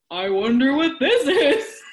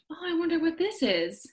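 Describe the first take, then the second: First: Slow, louder, higher taunt; drawn-out tease. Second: Higher, sly, knowing tease; teasing singsong. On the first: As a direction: stretch it out to bait her. Husband repeats the tease louder. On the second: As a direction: dangle the surprise playfully. Husband teasing with hidden gift. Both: Retold or imitated.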